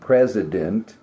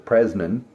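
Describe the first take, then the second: First: The word is said fully with every syllable. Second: The word is rushed with part of it dropped. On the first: The speaker calls it right. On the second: The speaker calls it wrong. "I've heard somebody talk about the"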